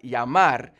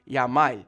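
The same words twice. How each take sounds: First: The word ends with an R sound. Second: The word ends with an L sound. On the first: "instead of saying something like llamar" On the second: "substitute the R's for the L's"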